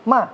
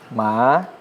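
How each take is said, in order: First: The pitch falls sharply from high. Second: The pitch rises from middle to high.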